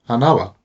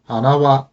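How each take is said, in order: First: Hanawa with the pitch falling onto wa; final accent. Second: Hanawa with no pitch drop before wa; no accent. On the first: Teacher showing learners hanawa meaning flower, accent falling before wa. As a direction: rise to na in hanawa, then drop on wa. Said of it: "the flower". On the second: Teacher showing learners hanawa meaning nose, with no accent fall. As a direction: rise after ha and hold the pitch through wa in hanawa. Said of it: "there is a difference between hanawa". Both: Shown as a demonstration.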